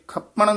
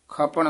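First: The word is said hard and firmly. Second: The word is said softly and gently. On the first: The speaker calls it wrong. "ਇਹ ਖਪਣ ਨੀ ਕਹਿਣਾ ਹੈ" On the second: The speaker calls it right. "ਪੋਲਾ"

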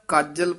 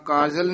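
First: The word is pronounced tightly, with pressed emphasis. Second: The word is pronounced loosely, without pressed emphasis. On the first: The speaker calls it right. "ਕਸਕੇ ਬੋਲਣਾ" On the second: The speaker calls it wrong. "ਨੀ ਕਹਿਣਾ"

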